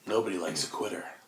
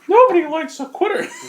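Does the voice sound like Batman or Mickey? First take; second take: Batman; Mickey. First: It is said in a Batman-like voice. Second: It is said in a Mickey-like voice.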